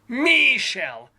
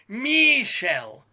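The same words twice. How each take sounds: First: The first vowel is a long ee sound. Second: The same.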